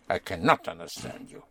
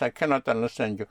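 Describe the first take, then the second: First: The word 'not' gets strong extra stress. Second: The word 'not' gets no extra stress. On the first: It insists that understanding is impossible. "Unless you want to put a special stress on not" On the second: It is a plain statement. "But just"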